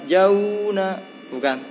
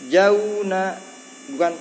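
The two takes are said the same way.

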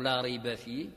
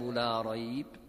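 First: The voice stops after la rayba fihi. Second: The voice stops right after la rayb.

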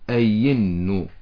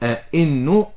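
First: The middle sound is a smooth y sound. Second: The middle sound is a clear glottal stop. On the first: "ويجوز لي أن أقلبها إلى الياء" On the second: "يجوز لي أن أنطق الهمزة الثانية كما هي همزة أحققها"

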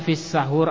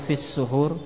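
First: The first vowel of the word is 'a'. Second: The first vowel of the word is 'u'. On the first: The food eaten before dawn. "boleh dibaca dengan fathah" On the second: The act of eating before dawn. "boleh dibaca dengan dhammah"

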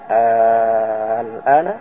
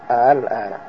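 First: The opening vowel is stretched out very long. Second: The second hamza is softened, not fully pronounced. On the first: "membaca 6" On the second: "dibaca juga dengan tasil"

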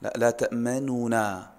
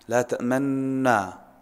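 First: The first n carries a brief, faint u vowel. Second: The two n sounds merge with no vowel heard. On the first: "هذا الروم يظهر النون الأولى نطقا لكن ليست حركة كاملة بثلث الحركة" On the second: "يعني يضم شفتيه ضما دون صوت"

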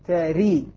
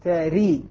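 First: The vowel after r is a full i. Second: The vowel after r is a full i.

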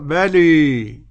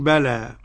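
First: The final vowel is tilted strongly toward 'ee'. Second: The final vowel is a plain open 'a'. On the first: This is the reading of Hamza and al-Kisa'i. "بلى الإمالة الحمزة والكساء مرة أخرى" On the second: This is the reading of the remaining reciters. "والبقون بلى"

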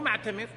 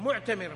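First: The meem is voiced with an 'a' vowel. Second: The meem is not voiced with an 'a' vowel. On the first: The speaker calls it wrong. "حاطين فتحة على الميم" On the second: The speaker calls it right. "هو معتمر"

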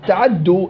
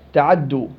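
First: The short vowel is given its full length. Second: The short vowel is said quickly and clipped. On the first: "الفتحة مريحة أنا" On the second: "لما أنطقها بسرعة اختلاس"

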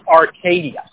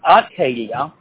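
First: The R sound is strongly pronounced. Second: The R sound is weak or dropped. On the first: This is how it is said in the local town. "You really, you know, push that R" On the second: This is how it is said further south. "down south, the same word comes down as"

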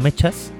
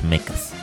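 First: It is read as Spanish spelling suggests. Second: It is said with its original sound. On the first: The speaker calls it wrong. "La forma en la que lo escribes es como mechas" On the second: The speaker calls it right. "en realidad el sonido es mechas"

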